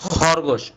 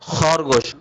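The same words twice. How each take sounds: No difference in how they are said.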